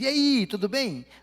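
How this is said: The greeting sounds warm and friendly.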